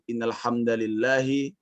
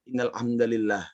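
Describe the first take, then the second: First: The final word ends with a short vowel. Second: The final word ends on a bare consonant. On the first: "boleh kita menyebut" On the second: "atau kita kita baca"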